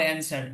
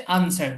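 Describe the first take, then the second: First: অ্যানসার opening on a front "a" as in cat; American pronunciation. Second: আনসার opening on a broad "ah"; British pronunciation. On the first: Teacher shows how Americans say it, অ্যানসার with front vowel. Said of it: "American যারা আছে". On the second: Teacher shows how Britons say it, আনসার with broad vowel. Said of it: "আর British যারা আছে". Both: Shown as a demonstration.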